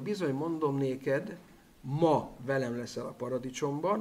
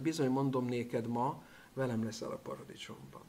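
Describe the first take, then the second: First: The pause comes right before the word 'ma'. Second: The pause comes right after the word 'ma'. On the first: Being in paradise together happens today. "ahogy a szöveg központ az a Bibliában" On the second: The statement itself is made today. "mint ahogy én hangsúlyozom"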